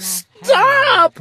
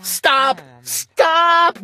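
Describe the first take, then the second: First: High, loud yell of Stop. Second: High rising double Stop; little sister screaming at the glunk; screamed. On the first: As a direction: cut him off with a high shout. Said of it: "my sister yelled". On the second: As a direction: shriek it twice, building. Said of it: "my little sister screamed". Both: A narrator's reading.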